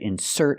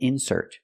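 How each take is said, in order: First: The stress is on the second syllable. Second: The stress is on the first syllable. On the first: It names the action of putting something in. "putting the stress on the second syllable" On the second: It names a thing put inside something. "We put the stress on the first syllable"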